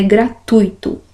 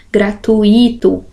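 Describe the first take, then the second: First: "gratuito" as gra-TUI-to, UI in one syllable; pronúncia certa. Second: "Gratuito" slowly as gra-tu-Í-to; pronúncia errada. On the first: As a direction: glide U into I in "gratuito", stressing TUI. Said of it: "O certo é gratuito". ("gratuito" com ditongo: gra-TUI-to) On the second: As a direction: stress a separate I in "Gratuito". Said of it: "não é assim que eu falo". ("Gratuito" com I tônico separado: gra-tu-Í-to) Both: Shown as a demonstration.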